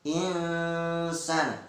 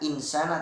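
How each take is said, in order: First: The n is hidden in a drawn-out nasal sound. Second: The n is said clearly and quickly. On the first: The speaker calls it right. "tapi insana, itu yang betul" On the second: The speaker calls it wrong. "tidak boleh tergesa tergesa-gesa insana"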